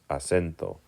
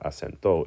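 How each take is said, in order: First: The stress is on the second-to-last syllable. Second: The stress is not on the second-to-last syllable. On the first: The speaker calls it right. "it's acento" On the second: The speaker calls it wrong. "it's not acento"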